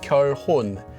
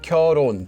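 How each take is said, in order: First: The h sound in the middle is clearly pronounced. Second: The h sound in the middle is dropped. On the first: The speaker calls it wrong. "It's not pronounced as 결혼" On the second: The speaker calls it right. "is just pronounced like 결혼"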